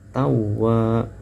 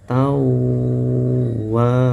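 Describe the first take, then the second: First: The nasal sound before wa is cut short. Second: The nasal sound before wa is held long. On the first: The speaker calls it wrong. "itu terlalu cepat" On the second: The speaker calls it right. "yang betul"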